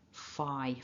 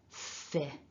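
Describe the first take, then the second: First: The vowel is a long 'eye' sound. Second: The vowel is a short 'ih' sound. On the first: The speaker calls it wrong. "where you're expecting to pronounce this as an I" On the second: The speaker calls it right. "it's a fin, not an I"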